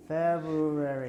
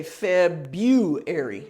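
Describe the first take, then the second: First: February said slowly as feb-u-i, clipped and off; learner's hesitant February; wrong stress attempt. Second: February said slowly as feb-yoo-ary, B and U joined; correct model. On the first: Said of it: "Except you don't say February". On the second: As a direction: say February with B and U run together. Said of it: "You say February". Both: Shown as a demonstration.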